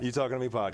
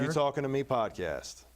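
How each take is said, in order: First: It is said at normal speed. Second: It is said slowly.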